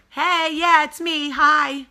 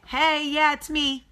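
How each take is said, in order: First: High, loud, sarcastic hello; mock cheery greeting. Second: High, bright sarcastic hello; mock cheery greeting. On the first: To the staring couple at the bar, a loud sarcastic hi. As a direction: wave them off with fake brightness. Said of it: "to which I go". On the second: Repeating her hello to the staring couple, sarcastically cheery. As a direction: call over with fake friendliness. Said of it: "So I said".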